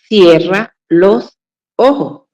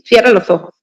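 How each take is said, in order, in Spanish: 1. Las palabras se dicen despacio y por separado. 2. Las palabras se dicen juntas, rápido. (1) "Cuando deberíamos decir" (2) "todo pegado... como hablamos tan rápido, lo decimos así"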